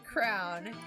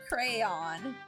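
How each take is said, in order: First: The word is said in a Southern pronunciation. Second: The word is said in a standard pronunciation. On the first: The speaker calls it wrong. "I say crown, It's a it's a southern dialect thing" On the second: The speaker calls it right. "it's supposed to be pronounced crayon"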